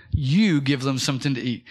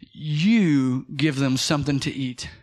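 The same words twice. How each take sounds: First: Said in the usual way. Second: "You give them something to eat" drawn out, leaning on "You"; a lightly voiced Jesus, firm and slow; slow emphatic quote. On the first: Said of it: "I think it's verse thirty-seven". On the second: Preacher voicing Jesus to the disciples, slow and emphatic. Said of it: "He turned around and said".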